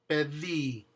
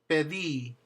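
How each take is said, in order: Both takes have the same delivery.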